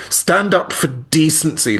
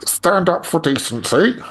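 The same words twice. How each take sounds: First: Higher, slow, emphatic appeal; earnest appeal. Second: High, slow politician impression; Keir Starmer. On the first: Retold or imitated. Retelling an indignant reaction to an interview, emphatic and high. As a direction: urge it in your own voice, drawn out. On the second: Asked to repeat the slogan in a politician's voice, mock-earnest. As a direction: put on a politician's voice, higher and drawn out. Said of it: "in your Keir Starmer voice".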